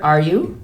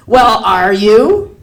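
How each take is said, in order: First: Said in the usual way. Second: Loud, drawn-out challenge; insistent demand. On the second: Acted. Customer grilling the clerk, loud drawn-out demand. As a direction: push the question hard, slowly, voice rising.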